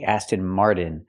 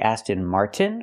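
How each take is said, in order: First: The T in 'Martin' is a quick flapped D. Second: The T in 'Martin' is a clear released T. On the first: The speaker calls it wrong. "We cannot pronounce it with a fast D. We cannot say Aston Martin" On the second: The speaker calls it right. "We have to say Aston Martin with a T"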